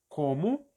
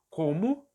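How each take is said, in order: Both takes have the same delivery.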